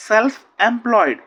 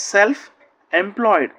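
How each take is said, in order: First: Self employed stretched out very slowly, Self loud; drawn out for learners to copy; very slow classroom model; slow model reading. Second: Said in the usual way. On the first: Shown as a demonstration. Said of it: "teacher models the phrase slowly". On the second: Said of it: "teacher repeats the phrase normally".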